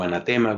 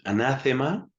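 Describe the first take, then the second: First: The stress falls on the third syllable. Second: The stress falls on the second syllable. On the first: This is the form adapted into Spanish. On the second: This is the original form of the word.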